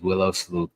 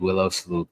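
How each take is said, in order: First: The second word sounds like 'sleuth'. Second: The same.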